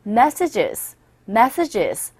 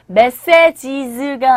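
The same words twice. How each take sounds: First: MESsages with weak later syllables; stress on first syllable. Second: Messages in even, full syllables, Korean-style; wrong stress demo. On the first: Teacher modelling the word for learners, first-syllable stress in messages. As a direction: lean on the "mes" of messages. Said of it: "첫 번째 강세를 주셔서". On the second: Teacher showing what to avoid, evenly stressed messages. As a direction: give every syllable of messages equal weight. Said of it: "아니라 첫 번째 강세를 주셔서". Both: Shown as a demonstration.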